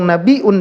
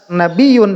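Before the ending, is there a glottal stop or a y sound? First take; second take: glottal stop; y sound. First: A glottal stop comes before the ending. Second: A y sound comes before the ending. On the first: "dengan hamzah" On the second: "dengan ya"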